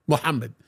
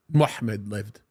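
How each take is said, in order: First: Sarcastic. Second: Said in the usual way. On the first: Real, not acted. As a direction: sneer the name, half laughing. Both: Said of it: "forgive the sarcasm".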